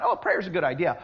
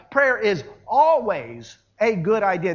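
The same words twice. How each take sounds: First: Said in the usual way. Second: "always" stretched and given full weight; stress on always. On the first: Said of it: "not, "Oh, prayer's a good idea". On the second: Shown as a demonstration. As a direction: lean firmly on "always". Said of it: "the emphasis is on the word always".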